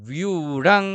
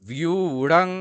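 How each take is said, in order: The two takes are said the same way.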